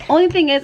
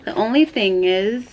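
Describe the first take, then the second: First: "only" punched higher and louder, falling; louder emphatic restart on "only"; stress on ONLY. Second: Said in the usual way. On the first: Real, not acted. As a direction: hit "only" hard and high.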